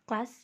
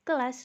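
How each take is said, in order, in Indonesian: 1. Dua konsonan pertama membentuk gugus. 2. Sebuah vokal memisahkan dua konsonan pertama. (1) "gugus konsonan K L pada kata kelas" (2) "diselipkan vokal tengah sedang E sehingga lafalnya menjadi"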